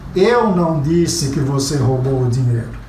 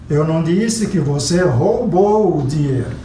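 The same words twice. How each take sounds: First: The stress falls on the word eu. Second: The stress falls on the word roubou. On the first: Someone else said it. "estou dizendo que alguém disse, não fui eu" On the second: It was borrowed, not stolen. "você pegou emprestado"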